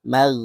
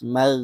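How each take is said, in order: No difference in how they are said.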